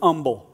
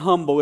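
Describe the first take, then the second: First: The h is dropped, Appalachian style. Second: The word starts with a clear h sound.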